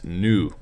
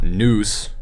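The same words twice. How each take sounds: First: The final s is silent. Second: The final s is pronounced. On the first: The speaker calls it right. "it's nous" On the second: The speaker calls it wrong. "So it's not nous"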